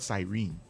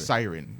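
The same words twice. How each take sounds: First: It is said like 'serene', not 'siren'. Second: It is said like 'siren', not 'serene'. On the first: The speaker calls it wrong. "those who are saying serene is, is is wrong" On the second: The speaker calls it right. "I found the correct pronunciation of siren"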